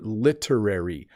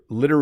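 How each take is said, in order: First: The T is a crisp hard T. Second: The T is a soft D-like flap. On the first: This is an extremely proper way to say it. The speaker calls it wrong. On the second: This is how people normally say it. The speaker calls it right.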